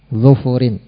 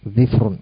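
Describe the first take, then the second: First: Both of the first two consonants take a u vowel. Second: An i vowel follows the first consonant, none the second. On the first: "dengan mendhamah huruf dhadnya dan huruf fa-nya" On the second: "mengkasrah huruf dhad dan mensukun huruf fa"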